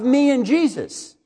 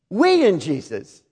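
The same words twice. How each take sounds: First: "me" leaned on, slower; stress on me. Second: "we" hit with a falling tune; stress on we. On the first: Preacher to church, "me" stressed as the wrong way. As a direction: press the word "me" against "we". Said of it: "not enough of we and Jesus". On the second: Preacher to church, "we" stressed as the right way. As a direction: land hard on "we" as the right answer. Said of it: "too much of me and Jesus". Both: Shown as a demonstration.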